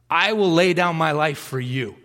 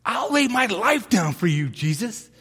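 First: Said in the usual way. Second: Peter's bold vow, pitched higher; eager Peter. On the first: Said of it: "look at that cocky". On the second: Retold or imitated. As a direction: swear it like a cocky disciple. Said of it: "what does Peter say".

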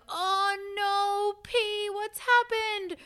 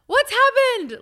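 First: High, drawn-out mock wail; put-on high cry of alarm over a pet; imitating distressed partner. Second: Loud, high-pitched worried shout; re-enacted alarmed holler; retold yell. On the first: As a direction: wail it high and slow, in dismay. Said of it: "I wake up to Renan going". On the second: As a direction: yell it out high, as if to another room. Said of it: "So I yell out".

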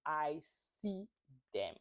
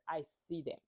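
First: I see them, each word set apart by pauses; spaced-out emphasis. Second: Said in the usual way. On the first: Shown as a demonstration. Vlogger insisting she sees Candice's fans, each word apart.

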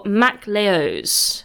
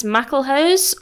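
First: "MacLeose" split after Mac, H dropped; alternative name reading. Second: "MacLehose" read as mackle-hose; first name reading. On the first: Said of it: "or MacLeose". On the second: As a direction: say "MacLehose" with an H starting the last syllable. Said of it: "I can't tell if it's". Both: Shown as a demonstration.

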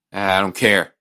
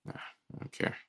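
First: Said in the usual way. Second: Under the breath, nearly voiceless; muttered dismissal. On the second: Real, not acted. Brushing off his friend's praise, muttered under breath. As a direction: shrug it off under your breath.

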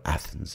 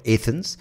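First: Athens with a short A, "ATH-ens"; standard pronunciation of Athens. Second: Athens with a long AY, "AY-thens"; Indian pronunciation of Athens. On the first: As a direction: open Athens on the a of "cat". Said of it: "people out there do call it Athens". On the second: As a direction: open Athens on an "ay" sound. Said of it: "We, of course, like to call it Athens". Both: Shown as a demonstration.

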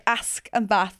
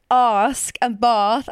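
First: "Ask" and "bath" with a short, flat "a"; short northern "a" in "Ask" and "bath"; northern short-A pronunciation. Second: "Ask" and "bath" with a long "ah" vowel; co-host's long-A pronunciation. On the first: Shown as a demonstration. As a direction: say the vowel of "Ask" and "bath" as in "cat". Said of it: "and I say". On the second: Retold or imitated. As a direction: say "Ask" as "ahsk", "bath" as "bahth", punched louder. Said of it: "Em says, like".

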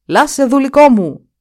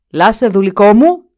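First: Loud cry, higher and louder; shouting. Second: Much louder call, rising on μου; shouting again. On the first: The Duke cries out for his servant Lasse, loud and high. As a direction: call out for the lost servant. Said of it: "Με μιας ξεφώνησε". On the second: The Duke shouts a second time for Lasse, much louder. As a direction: call harder into the empty hut. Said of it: "Για δεύτερη φορά φώναξε". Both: Acted.

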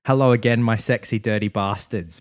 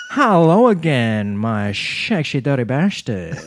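First: Said in the usual way. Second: Slow, hammed-up Dutch accent with slushy S sounds. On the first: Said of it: "But she says it with". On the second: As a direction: imitate a Dutch vlogger's drawn-out greeting. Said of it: "with this very beautiful Dutch accent".

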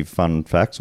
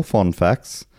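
First: Said in the usual way. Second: FOND said as "fon", rounded vowel; Middle English "fon". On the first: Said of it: "the word fun". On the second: Pretend. Host asking listeners for facts, FOND said as old-style "fon". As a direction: swap the vowel of "fun" for "fon". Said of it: "English fon".

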